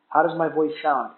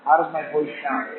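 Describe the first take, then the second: First: The voice is heard without background noise. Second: The voice is heard over background noise.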